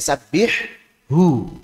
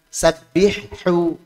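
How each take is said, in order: First: The ha sound is pronounced clearly and distinctly. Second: The ha sound is blurred and not clearly pronounced. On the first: The speaker calls it right. "Hu-nya jelaskan" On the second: The speaker calls it wrong.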